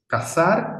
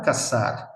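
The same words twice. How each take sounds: First: CAZAR with lisped TH, rising; tongue between the teeth on the Z of CAZAR. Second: CAZAR with plain S, "ka-SAR", falling; S sound. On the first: Teacher contrasting Z and S, CAZAR with TH. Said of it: "confusión entre Z". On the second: Teacher contrasting Z and S, CAZAR with S. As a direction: say CAZAR as "casar", hissed S. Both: Shown as a demonstration.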